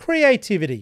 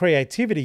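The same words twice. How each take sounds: First: The word is said with a raised voice. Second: The word is said at normal volume.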